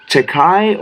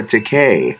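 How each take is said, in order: First: Takei with second syllable like "kai"; Takei rhyming with sky. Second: Takei with second syllable like "kay"; Takei rhyming with day. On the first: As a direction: say Takei to rhyme with "eye". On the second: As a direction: say Takei to rhyme with "say". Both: Shown as a demonstration. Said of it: "is it Takei or Takei".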